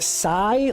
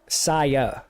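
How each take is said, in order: First: The name is one syllable, like sigh. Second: The name is two syllables, ending in ah. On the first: "like I'm saying, like like like ah like a sigh" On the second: "or is it Saya?"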